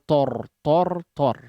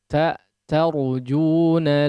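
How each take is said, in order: First: The syllable sounds heavy with a rounded vowel. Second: The syllable sounds light with an open vowel. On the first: The speaker calls it wrong. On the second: The speaker calls it right.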